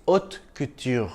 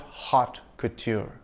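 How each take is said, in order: First: Haute couture as "oat koo-tyur", silent H; French pronunciation. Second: Haute couture slowly as "hot koo-choor", H sounded; wrong pronunciation. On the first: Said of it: "The H is silent and the T is soft". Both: Shown as a demonstration.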